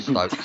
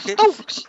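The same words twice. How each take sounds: First: Said in the usual way. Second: Stokes! yelled high and loud; shouted Stokes. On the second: Shown as a demonstration.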